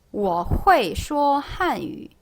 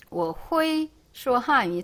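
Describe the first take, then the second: First: 会 said correctly as "huei", falling; slow 我会说汉语 with an e inside 会; model sentence. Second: 会 misread as "hu-i" without the e; slow, softly mocked 我会说汉语, 会 jumping to i; unskilled learner. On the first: Shown as a demonstration. Teacher modelling "I can speak Chinese", model sentence. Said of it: "어때요?". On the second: Teacher imitating someone bad at Chinese, unskilled learner. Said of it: "촌스럽고 되게 중국어 못하는 사람처럼 들려요".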